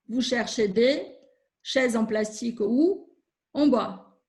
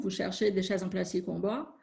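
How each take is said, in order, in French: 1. Les groupes rythmiques sont coupés à des endroits peu naturels. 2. Les groupes rythmiques suivent le rythme naturel. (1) "je ne respecte pas les groupes rythmiques" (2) "je prononce correctement"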